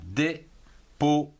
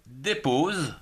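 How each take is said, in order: First: "dépose" split into dé, po, ze with pauses; syllable by syllable. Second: Said in the usual way. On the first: Shown as a demonstration. Teacher counts three syllables for pupils, "dépose" broken in three. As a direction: sound the final e of "dépose" as its own beat. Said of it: "Trois syllabes". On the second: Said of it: "Allez, on y va".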